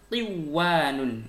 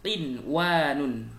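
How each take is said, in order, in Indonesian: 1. Bunyi n menyatu dengan w yang mengikutinya. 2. Bunyi n diucapkan dengan jelas.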